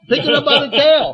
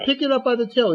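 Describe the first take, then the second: First: Higher and much louder, booming the repeat; insist, like he won't say it a third time; louder insistent command. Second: Said in the usual way. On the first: Acted. God repeats command, Moses balks.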